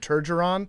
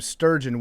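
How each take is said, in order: First: An extra syllable with r comes before the end. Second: An s sound is added at the very start. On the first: "dads across America either call him Turgeron" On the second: "or they call him sturgeon, which is actually the name of a fish"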